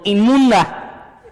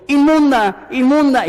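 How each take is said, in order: First: Slow, drawn-out mock cry, breaking into a laugh; half-laughing call of unclean, stretched out; mock shout of unclean. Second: Much higher, louder mock street cry, repeated; hammed-up yell of unclean as if warning passers-by; shouting unclean. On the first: Preacher imitating an unclean woman crying out in the street, laughing mock cry. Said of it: "tenía que caminar en la calle gritando". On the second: Preacher acting out a woman crying out in the street, loud high mock shout. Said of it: "caminando en la calle gritando".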